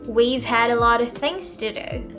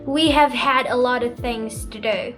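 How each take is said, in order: First: 'We have' is contracted to 'we've'. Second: The words 'we have' are said in full.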